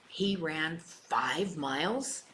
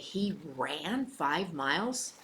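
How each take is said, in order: First: The stress falls on the word five. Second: The stress falls on the word ran. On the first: The point is about the distance. "the emphasis was on either how far or how not far enough" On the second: The surprise is that he ran rather than walked. "running is a whole different story. So the emphasis is there"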